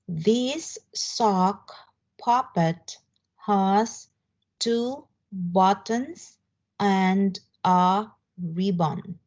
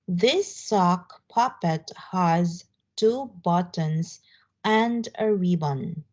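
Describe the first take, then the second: First: The sentence is read at a slower pace. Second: The sentence is read at a faster pace.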